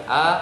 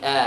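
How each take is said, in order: First: Thin, open A with the mouth wider. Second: Thick, dark A with the sound pushed down. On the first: Teacher shows the wrong thin A to a student. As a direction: let the A come out thin and open, not thick. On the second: Teacher shows the right thick A to a student. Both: Shown as a demonstration. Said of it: "bukan A, tapi A".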